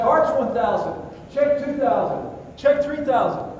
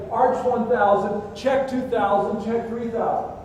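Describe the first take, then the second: First: The count climbing higher with each step; adrenaline-charged count, higher and higher; panicked cadence. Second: Measured training chant; drilled cadence. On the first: Retold or imitated. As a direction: rattle off the count in free fall. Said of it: "I throw my arms up and say". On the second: Shown as a demonstration. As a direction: spell out each count as an instructor teaches it. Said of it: "you throw your arms out and you say".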